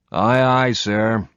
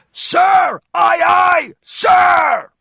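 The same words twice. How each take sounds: First: Said in the usual way. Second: Very high, loud parade-ground scream; screamed at attention. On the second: Acted. Josh in Airborne mode answering the bosun with a full scream. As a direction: bellow it like a paratrooper at attention. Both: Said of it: "snapped to attention and screamed".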